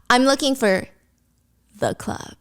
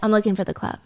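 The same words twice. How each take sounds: First: The stress falls on the word the. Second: The stress falls on the word club.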